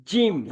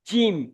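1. j শক্ত, জিভ তালুতে চেপে থাকে। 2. j শক্ত, জিভ তালুতে চেপে থাকে।

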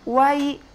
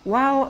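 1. Luncuran vokal berakhir pada bunyi 'i'. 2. Luncuran vokal berakhir pada bunyi 'u'. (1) "Cara membacanya, wai" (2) "bukan wao ya"

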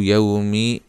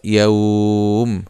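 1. المدّ قصير ويتصل بحركة في آخر الكلمة. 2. تنتهي الكلمة بالوقف مع إطالة المدّ. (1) "في حالة الوصل" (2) "فيها مد لين في حالة الوقف"

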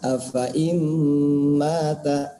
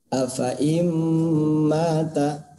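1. Vokal setelah f dibaca pendek. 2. Vokal setelah f dibaca pendek.

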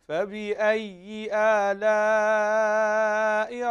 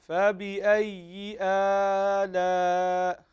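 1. الحركة بعد الهمزة تبقى قصيرة. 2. الحركة بعد الهمزة ممدودة. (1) "الصحيح" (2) "لا تمد الهمزة، لا تقل فبأي آلاء، خطأ"

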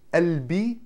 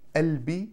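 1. Слово начинается с мягкого гортанного начала. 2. Слово начинается с мягкого гортанного начала.

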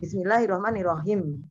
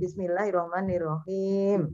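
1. Huruf panjang dibaca cepat dan dipotong pendek. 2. Huruf panjang ditarik dan dibaca panjang. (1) "walaupun cepet-cepetan, tetap jangan" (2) "Padahal itu harus dibaca panjang"

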